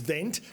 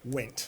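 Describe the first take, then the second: First: The name begins with a V sound. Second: The name begins with a W sound. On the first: The speaker calls it wrong. "A lot of people think it's Vent" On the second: The speaker calls it right. "but it actually was Wendt"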